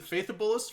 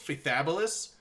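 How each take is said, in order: First: Faithabolis with the middle vowel reduced, FAITH-uh-bolis; first pronunciation option. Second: Faithabolis with a full A, fay-THAB-uh-lis; second pronunciation option. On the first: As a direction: say Faithabolis as "FAY-thuh-blis". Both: Shown as a demonstration. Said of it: "correct way to pronounce that region".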